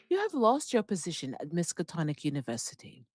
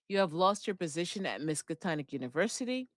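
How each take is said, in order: First: It is read in a put-on British accent. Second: It is read in the speaker's ordinary accent. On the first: The speaker calls it right. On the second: The speaker calls it wrong.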